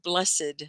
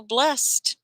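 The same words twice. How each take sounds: First: BLESSED said "bless-id"; two syllables. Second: BLESSED said "blest", raised in pitch; one syllable. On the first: Teacher shows how the name is not said, two syllables. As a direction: sound the -ed of BLESSED separately. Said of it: "So it's not blessed". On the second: Teacher confirms the student's name, just one syllable. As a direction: say BLESSED in one beat with final t. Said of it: "just one syllable". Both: Shown as a demonstration.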